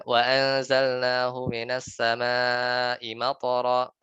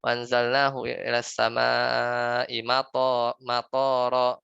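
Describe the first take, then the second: First: Slow chanted Arabic, "matara" with short vowels; correct Quran recitation. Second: Slow chant, "matara" stretched with long vowels like "matoro"; wrong recitation. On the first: Ustaz showing students the correct reading, slow Quranic chant. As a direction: recite "Wa anzalnahu minas samaa'i matara" slowly, tajwid style. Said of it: "Misalnya baca gini lah". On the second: Ustaz demonstrating a common misreading to students, slow chant. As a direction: recite "Wa anzalnahu ilas samaa'i matara" slowly with a long drawn "matoro". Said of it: "Tapi kita bacanya salah".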